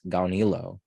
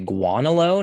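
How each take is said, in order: First: The name begins with a 'gaw' sound. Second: The name begins with a 'gwa' sound. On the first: The speaker calls it right. "Surely it's Gaunilo" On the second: The speaker calls it wrong. "I've heard some people say Guanalo. Now that's really weird"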